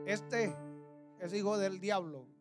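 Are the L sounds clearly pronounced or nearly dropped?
pronounced. The L sounds are pronounced clearly.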